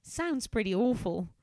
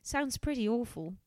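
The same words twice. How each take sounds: First: Faint Australian lilt creeping in; slightly Australian. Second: English voice. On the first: Acted. Helen sympathizing with Vicky, in a slightly Australian accent. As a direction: let a little Australian slip into the line. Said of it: "Am I, like, slightly Australian now". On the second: Shown as a demonstration. Helen sympathizing with Vicky, in an English voice. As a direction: own English accent. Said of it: "This is my English voice".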